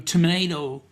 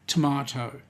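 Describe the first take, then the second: First: It is said with an American pronunciation. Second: It is said with a British pronunciation. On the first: "You Americans will go tomato" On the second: "A proper Englishman will say tomato"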